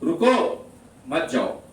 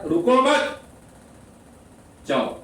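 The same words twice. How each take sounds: First: The pause comes after the first word. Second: The pause comes after the second word.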